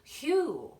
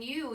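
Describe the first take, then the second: First: The word begins with a breathy h sound. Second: The word begins with a plain y sound. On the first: "you would say Hugh" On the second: "instead of saying you"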